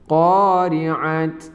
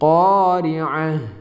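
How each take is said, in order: First: The word ends with a t sound. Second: The word ends with an h sound. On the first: The speaker calls it wrong. "Bukan qari'at" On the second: The speaker calls it right. "akan tapi qari'ah"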